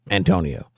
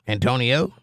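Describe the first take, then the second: First: "Antonio" low, with a falling end; settled. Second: "Antonio" with a rising, unsure end; questioning. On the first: Settles on the name. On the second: Working out how a name reads. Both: Real, not acted.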